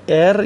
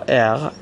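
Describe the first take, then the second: First: The R is made with the tongue tip. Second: The R is made in the throat. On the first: "به صورت ر یا غ تلفظ میکنن" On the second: "به صورت ر یا غ تلفظ میکنن"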